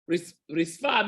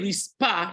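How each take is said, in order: First: The middle consonant is a soft f sound. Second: The middle consonant is a hard p sound. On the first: It means the floor. The speaker calls it right. "Risfa means the floor" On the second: It means hot coal. The speaker calls it wrong. "if you say rispa with a pay"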